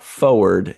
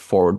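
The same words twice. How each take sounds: First: The R sound in the middle is dropped. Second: The R sound in the middle is pronounced. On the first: The speaker calls it wrong. "stop dropping the R" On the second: The speaker calls it right. "It's there. I see it"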